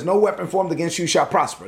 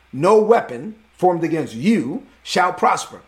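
First: Said in the usual way. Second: No weapon formed against you shall prosper, slower, each word leaned on; emphatic repeat. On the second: Shown as a demonstration. Pastor repeats the verse straight at his listeners, slow and emphatic. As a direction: drive the verse home slowly. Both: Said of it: "Look at me".

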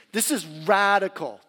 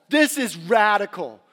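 First: Said in the usual way. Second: "This is radical" slower and louder, leaning on "This"; swelling emphasis on "This is radical"; louder emphatic repeat. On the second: Acted. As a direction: punch "This" in "This is radical" with rising force.

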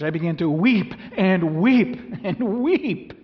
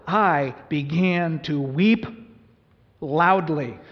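First: Each weep louder, higher and slower; emphatic repetition. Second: Slow, loud, drawn-out reading of weep; slow emphatic reading. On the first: Pastor shows the congregation the original repetition, swelling. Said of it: "It's an emphatic, it's a repetition". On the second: Pastor reads John's words to the church, slow and heavy. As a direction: lean hard on weep and loudly, slowly. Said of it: "It's an emphatic". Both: Shown as a demonstration.

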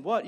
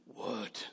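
First: Said in the usual way. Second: Snapped what. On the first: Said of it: "instead of saying". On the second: Retold or imitated. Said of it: "you turn around and say".

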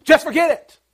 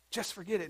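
First: Loud, high, indignant outburst; upset and mad. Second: Said in the usual way. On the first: Acted. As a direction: throw it out as an angry shout. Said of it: "get upset and mad".

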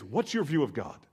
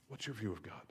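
First: Said in the usual way. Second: Softer, hushed repeat of What's your view of God. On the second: Shown as a demonstration. Pastor repeating the question to the congregation, hushed. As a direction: drop to a near-murmur and let it sink in.

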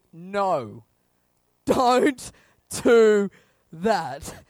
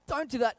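First: Loud, word by word; firm command. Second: Higher, tentative caution; mild warning. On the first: God stepping up the warning, firm loud command. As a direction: forbid it with a heavy beat on each word. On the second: God watching from heaven, mild warning. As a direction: lightly warn them off. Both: Acted.

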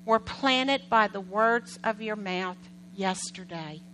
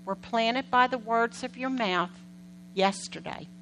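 First: Slow emphasis. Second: Said in the usual way. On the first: Shown as a demonstration. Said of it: "repeats key line for emphasis". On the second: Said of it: "repeats key line".

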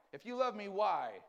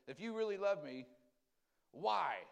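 First: Higher, louder, pleading "why?"; demanding why. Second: A hint of a plaintive protest; complaining believer. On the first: Retold or imitated. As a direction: push the "why?" up and out. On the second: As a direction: ask why like a hurt child. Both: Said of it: "The big why".

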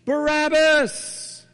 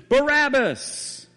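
First: High, drawn-out shout of the name; crowd shout. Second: High, stretched-out shout of the name; crowd shout heard from afar. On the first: Preacher voicing the crowd, a long high shout. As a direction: bellow it like a whole mob. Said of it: "the crowd shouts in unison". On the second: What Barabbas hears from his cell, a long high shout. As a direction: cry it out like a mob through prison walls. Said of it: "a crowd shout in unison". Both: Retold or imitated.

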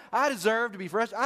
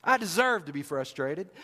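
First: Higher and louder, pushing the grievance; louder complaint. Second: Muttered grievance at normal pitch; sulky complaint. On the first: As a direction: insist it harder. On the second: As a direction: grumble it first. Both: Acted. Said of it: "I can hear him saying this".

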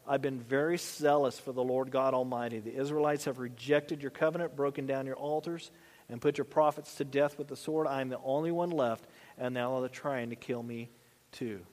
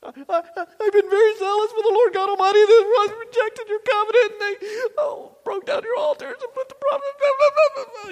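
First: Lower, softer, deflated recital; mopey repeated complaint. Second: Much higher, louder whining complaint; whiny self-pitying Elijah. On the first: Elijah repeating his speech to God, low and mopey. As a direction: recite the same gripe, worn down and sunk. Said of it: "like the tape in the mind". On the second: Elijah complaining to God, high loud whining. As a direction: bleat it out like a sulking child. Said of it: "He's feeling sorry for the self". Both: Acted.

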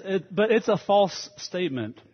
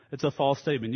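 First: Emphatic, raised preacher's voice; emphatic restatement. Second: Said in the usual way. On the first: Acted. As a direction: punch "false statement", higher and louder.

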